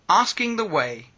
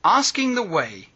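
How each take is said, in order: Both takes have the same delivery.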